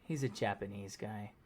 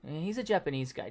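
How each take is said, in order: First: It is said in a disdainful, let-down tone. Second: It is said in a plain, neutral tone. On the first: Being Japanese is treated as something bad. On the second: It is just a description of his appearance. "just so you know what he looks like"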